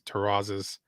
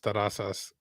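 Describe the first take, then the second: First: The name is said with an English pronunciation. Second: The name is said with a Spanish pronunciation. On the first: "people who pronounce it in English is" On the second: "in Spanish, the way it's pronounced is"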